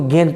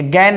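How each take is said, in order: First: The vowel is mid, like in 'bed'. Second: The vowel is open, like in 'cat'. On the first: The speaker calls it right. "इसको गेन पढ़ते हैं" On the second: The speaker calls it wrong. "ये गैन नहीं होता है"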